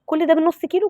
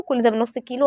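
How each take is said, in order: First: Pitched high, "ده" lifted on a rising tune; excited. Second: Said in the usual way. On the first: Real, not acted. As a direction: sound amazed that "كل ده" comes from half a kilo. Amazed at half a kilo. (بدهشة وحماس بصوت عالي النبرة)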